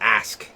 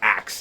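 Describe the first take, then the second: First: The word ends with an 'sk' sound. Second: The word ends with a 'ks' sound. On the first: "or ask, A S K" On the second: "A lot of people say ax, A X"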